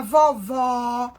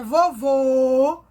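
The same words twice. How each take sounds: First: Vovó with a wide open, held final O. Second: Vovô with a loud, long closed final O. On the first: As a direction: stretch the open O at the end of vovó. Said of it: "ó o som do O aberto". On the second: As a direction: hold the closed O at the end of vovô. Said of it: "o som fechado". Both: Shown as a demonstration.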